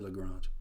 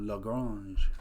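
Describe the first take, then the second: First: The name gets a plain, ordinary pronunciation. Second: The name gets a fancy, pretentious pronunciation. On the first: "You can say Lagrange" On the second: "you don't have to so be so pretentious like I am"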